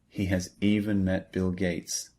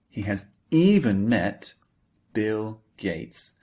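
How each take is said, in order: First: The word 'even' is said flat, unstressed. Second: The word 'even' is strongly emphasized.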